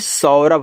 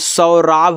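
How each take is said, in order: First: The second syllable has a short 'a' vowel. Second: The second syllable has a long 'aa' vowel. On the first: The speaker calls it right. "सौरभ होता है" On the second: The speaker calls it wrong. "सौराभ नहीं"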